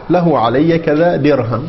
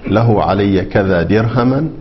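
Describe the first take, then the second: First: The last word ends with no final vowel. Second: The last word ends in the vowel a. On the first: "ووقف بالسكون" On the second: "النصب"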